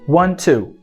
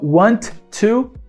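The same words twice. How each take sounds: First: The two T sounds merge into one. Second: Both T sounds are pronounced separately. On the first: The speaker calls it right. "eu não preciso pronunciar duas vezes" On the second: The speaker calls it wrong. "não"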